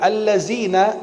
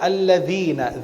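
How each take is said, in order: First: The consonant is a buzzing z sound. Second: The consonant is a dh sound, tongue tip out. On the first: The speaker calls it wrong. "Kalau bilang allazina beda dengan alladzina" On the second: The speaker calls it right. "Ujung lidah kita keluar alladzi"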